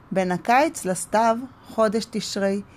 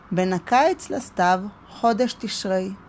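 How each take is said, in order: The two takes are said the same way.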